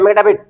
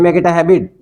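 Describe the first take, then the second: First: It is rushed so fast the words blur together. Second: It is said quickly but every word is clear. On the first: The listener cannot tell what was said. The speaker calls it wrong. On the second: The listener can follow what was said. The speaker calls it right.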